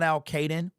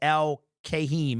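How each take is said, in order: First: The name ends with a 'den' sound. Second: The name ends with a 'heem' sound. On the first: The speaker calls it wrong. "It is not Al Caden" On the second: The speaker calls it right. "It is Al Kahim"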